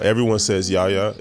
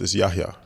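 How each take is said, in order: First: The middle H sound is dropped. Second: The middle H sound is clearly pronounced. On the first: This is how most people say the name. The speaker calls it wrong. "everyone says" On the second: This is how the name is really pronounced. The speaker calls it right. "So the H is not silent"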